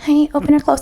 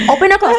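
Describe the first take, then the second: First: It is said in a mild, unforceful way. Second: It is said in an aggressive, forceful way.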